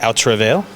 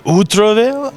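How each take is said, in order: First: The title is said with an American accent. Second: The title is said with a French accent. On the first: The speaker calls it wrong. "I'm not pronouncing it correctly in French, but I am American" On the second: The speaker calls it right. "Can you do it with a French accent? ... it should be"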